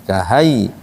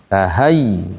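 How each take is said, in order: The two takes are said the same way.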